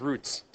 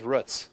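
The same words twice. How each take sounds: First: Roots said with a long oo, as in boots. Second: Roots said with a short oo, as in foot. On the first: Teacher asking who says roots, long oo like boots. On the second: Teacher asking who says roots, short oo like foot. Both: Shown as a demonstration. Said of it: "or is it the roots?".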